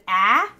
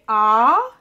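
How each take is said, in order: First: The vowel is said in an East Coast accent. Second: The vowel is said in a South Australian accent. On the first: "instead of ah" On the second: "We say ah"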